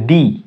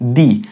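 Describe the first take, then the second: Both takes have the same delivery.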